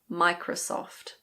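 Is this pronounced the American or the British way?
British. The last O has a British sound. "In British English"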